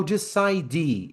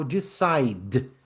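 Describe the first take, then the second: First: "decide" with a vowel added, de-ci-dee; wrong pronunciation. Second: "decide" ending on a bare d; slow "decide", no vowel after the d; correct pronunciation. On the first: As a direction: end "decide" on a full "dee" syllable. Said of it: "Eu não falo decide". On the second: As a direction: let "decide" stop on the consonant. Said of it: "eu falo decide". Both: Shown as a demonstration.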